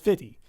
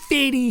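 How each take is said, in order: First: The t sound is dropped, like fitty. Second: The t sound is carefully pronounced.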